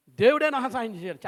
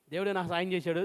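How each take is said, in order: First: Preacher mimics Jacob's smug lie to his father; Jacob's sly claim. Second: Said in the usual way. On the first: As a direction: play Jacob boasting that God helped him. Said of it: "ఈయన ఏమంటాడంటే". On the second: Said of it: "చాలామంది అనేది అదండి".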